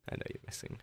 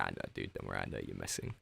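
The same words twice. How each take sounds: First: Whispered, soft teasing aside; playful whisper. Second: Much lower, softer teasing growl; mock deep voice. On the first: Pretend. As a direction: breathe it out as a secret tease. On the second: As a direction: drop way down low to tease the troll. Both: Teasing a chat troll.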